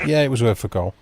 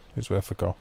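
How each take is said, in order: First: Said in the usual way. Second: Much softer and lower, as if to himself; quiet echo. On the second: Real, not acted. Repeating his line to Steve, quietly to himself. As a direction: let the repeat drop away under your breath. Echoing own line under breath.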